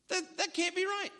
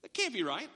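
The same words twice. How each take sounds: First: Higher, incredulous repeat; disbelief. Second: Said in the usual way. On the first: Retold or imitated. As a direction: say it again as if the idea can't be true. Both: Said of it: "what goes through your mind?".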